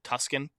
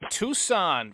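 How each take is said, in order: First: It is said with a clear k sound. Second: It is said without a k sound. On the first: The speaker calls it wrong. "I always pronounce it Tuscan" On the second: The speaker calls it right. "I know how it's, you know, what it's supposed to"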